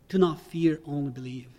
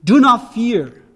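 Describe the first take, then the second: First: Soft repeat. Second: Loud, slow command on "Do not fear."; commanding imperative. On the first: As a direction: quietly let the command sink in. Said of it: "repeats the command softly". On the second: Pastor stressing the imperative to the church, forceful and slow. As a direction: hammer it home as an order. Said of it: "The word is an imperative". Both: Shown as a demonstration.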